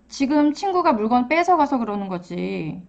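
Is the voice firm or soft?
soft. It is said softly in a lowered tone. The child is upset but not aggressive. "목소리 톤을 조금 더 낮춰서"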